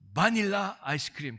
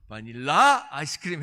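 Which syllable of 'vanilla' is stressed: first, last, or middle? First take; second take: first; last. First: The stress is on the first syllable. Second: The stress is on the last syllable. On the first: "액센트를 좀 더 넣어가지고" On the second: "이게 끝에 있나 보다"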